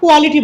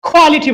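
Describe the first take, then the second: First: The first k sound is plain, without aspiration. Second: The first k sound is aspirated, like kh. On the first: The speaker calls it wrong. "তারা কখনোই কোয়ালিটি বলে না" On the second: The speaker calls it right. "কিউ এর sound খ"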